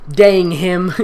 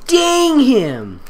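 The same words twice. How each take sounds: First: Said in the usual way. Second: Laughing. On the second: Acted. Redone with laughing emphasis.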